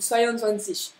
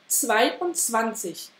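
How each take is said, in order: First: The parts run together without any breaks. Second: Small breaks separate the parts of the word. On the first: The speaker calls it wrong. "vous le lisez à la française et vous liez les mots entre eux" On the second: The speaker calls it right. "Les Allemands, ils coupent vraiment"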